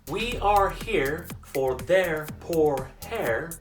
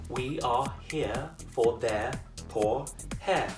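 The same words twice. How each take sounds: First: The R sounds are pronounced after the vowels. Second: The R sounds are dropped after the vowels.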